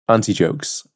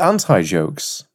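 First: It is said with a British pronunciation of anti. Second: It is said with an American pronunciation of anti. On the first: "We say anti-different in England" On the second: "Or as you call them, ... you strain the second syllable"

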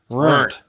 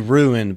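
First: The word is said as one syllable, rurnt. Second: The word is said in standard two-syllable form. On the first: "it's the redneck way of saying ruined" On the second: "It's supposed to be ruined"

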